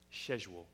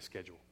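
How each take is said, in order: First: It is said with a British accent. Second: It is said with an American accent.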